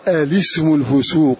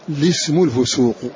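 First: It begins with a vowel before the l. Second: It begins directly with the l sound. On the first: "البدء بهمز الوصل" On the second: "بترك همز الوصل"

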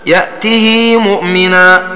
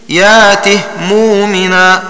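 First: The h has an i vowel lengthened to two beats. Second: The h carries no vowel at all. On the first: "الإشباع" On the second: "بإسكان الهاء"

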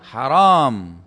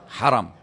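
First: The second vowel is long, drawn out. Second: The second vowel is short, without lengthening. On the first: Something is forbidden. The speaker calls it wrong. "Jangan Anda bilang haram. Karena kalau ditambah alif" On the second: The area is honored and sacred. The speaker calls it right. "Dibaca langsung"

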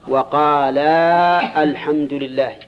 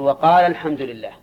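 First: The long vowel before al-hamdu is kept. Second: The long vowel before al-hamdu is shortened. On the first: The speaker calls it wrong. "نقرأ كذا؟ لا" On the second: The speaker calls it right. "نحذف الألف"

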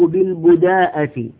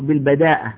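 First: The vowel after the first b is u. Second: The vowel after the first b is a. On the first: "والأفصح أن يكون بالضم" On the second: "بفتح الباء"

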